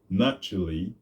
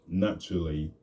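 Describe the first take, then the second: No difference in how they are said.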